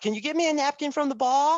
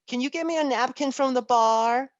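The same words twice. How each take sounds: First: It is said in an Australian accent. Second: It is said in a soft, sultry voice. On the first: "ask me in an Australian accent" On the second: "In her sexy, angelic voice"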